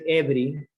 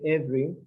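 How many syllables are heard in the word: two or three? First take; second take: three; two. First: All three syllables are pronounced. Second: The middle syllable is skipped, giving two syllables. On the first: The speaker calls it wrong. "We don't say every" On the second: The speaker calls it right. "say every"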